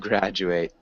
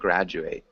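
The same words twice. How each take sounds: First: It is pronounced as the verb form. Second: It is pronounced as the noun form. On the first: The act of finishing school. "to graduate ... the other is the verb" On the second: A person who finished school. "a graduate ... one's the noun"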